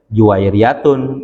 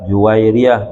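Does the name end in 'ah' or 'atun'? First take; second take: atun; ah. First: The name ends in 'atun' with nunation. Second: The name ends in 'ah' with a silent ending. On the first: It follows the regular grammatical pattern. "mestinya Juwairiyatun" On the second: The verse's meter requires dropping the nunation. "dibaca dengan sukun"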